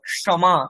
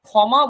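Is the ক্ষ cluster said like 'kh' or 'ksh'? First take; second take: ksh; kh. First: The cluster sounds like ksh. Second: The cluster sounds like kh. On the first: The speaker calls it right. "ক এবং মূর্ধন্য ষয়ের যে যুক্তাক্ষরের যে উচ্চারণ" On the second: The speaker calls it wrong. "বলবো না"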